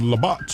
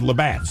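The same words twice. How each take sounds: First: The name is pronounced in a fancy way. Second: The name is pronounced in a plain, ordinary way. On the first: Someone else said it this way. "you said Labatt's. You made it sound fancy" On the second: This is how most people say it. "everyone I've heard says Labatt's"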